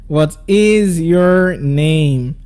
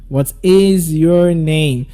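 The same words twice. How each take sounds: First: The voice falls at the end. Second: The same.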